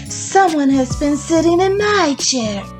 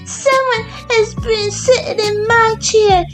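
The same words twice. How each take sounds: First: It is said in a medium-sized voice. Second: It is said in a small, high voice. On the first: "in her little middle-sized voice" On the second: "cried in his little wee voice"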